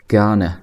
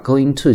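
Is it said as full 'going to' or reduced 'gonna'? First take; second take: reduced gonna; full form. First: The words are reduced into one short word. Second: Both words are said fully and separately. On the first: "注意它的读法是gonna" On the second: "我把going to 讲成gonna"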